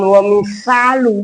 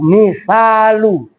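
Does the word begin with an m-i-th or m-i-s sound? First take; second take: s sound; th sound. First: The middle consonant is a plain s sound. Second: The middle consonant is a th sound. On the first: The speaker calls it wrong. "bukan wa misalu, itu mesin" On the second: The speaker calls it right. "baca makhrajnya pun yang benar"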